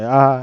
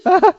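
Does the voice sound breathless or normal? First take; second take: normal; breathless. First: The voice is steady and normal. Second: The voice is strained and out of breath. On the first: He has just started and is still fresh. "his voice is like normal" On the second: He is tired after many counts. "the more like out of breath he gets"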